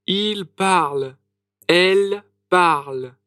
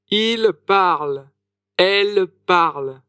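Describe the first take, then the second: No difference in how they are said.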